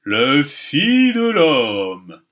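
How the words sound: It is said in old-fashioned theatrical pronunciation. "il disait ... la prononciation qu'avaient alors les comédiens de la Comédie-Française"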